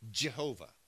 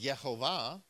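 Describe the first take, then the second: First: The name begins with a hard J sound. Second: The name begins with a Y sound. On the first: "we pronounced a hard J" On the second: "many Europeans pronounce the J like a Y"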